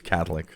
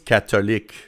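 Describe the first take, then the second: First: The word has an English pronunciation. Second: The word has a French pronunciation. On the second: "more in the French way because here it's catholique"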